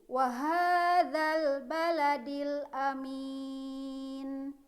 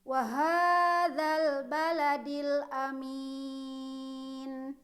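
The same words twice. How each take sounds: Both takes have the same delivery.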